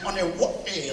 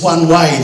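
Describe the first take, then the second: First: It is read as one Hawaiian-style word. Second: It is said as two plain English words. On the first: It is taken as a local place name. The speaker calls it wrong. "I have no problem saying Onewate like that" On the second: It is a traffic sign for one direction. The speaker calls it right. "mate, it's one way. They're American. They speak English"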